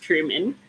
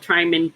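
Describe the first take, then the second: First: Truman said TROO-man, with an "oo" vowel; correct name pronunciation. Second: Tryman said as it is spelled, TRY-man; spelling pronunciation. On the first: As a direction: say Truman with "true" as the first syllable. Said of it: "but pronounced Truman". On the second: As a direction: say Tryman with "try" as the first syllable. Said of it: "Spelled Tryman". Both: Shown as a demonstration.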